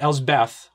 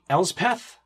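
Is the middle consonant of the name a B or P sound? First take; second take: B; P. First: The middle consonant is a B sound. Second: The middle consonant is a P sound. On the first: The speaker calls it wrong. "not Elsbeth, which I always pronounce it" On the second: The speaker calls it right. "it's going to be Elspeth"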